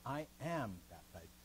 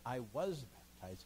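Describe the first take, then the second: First: "I am baptized" slow, am given the weight; stress on AM. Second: "I was baptized" slow, was leaned on, dropping; stress on WAS. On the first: Teacher showing Luther's true wording, stress on AM. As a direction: press on "am" in "I am baptized", slowly. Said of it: "He says". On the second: Teacher showing the wrong reading, stress on WAS. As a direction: lean on "was", slow and falling. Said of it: "But he doesn't say". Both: Shown as a demonstration.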